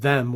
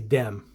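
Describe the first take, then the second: First: It begins with a soft th sound. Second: It begins with a hard d sound. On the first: "instead of them" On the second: "people whose French accent is maybe more obvious"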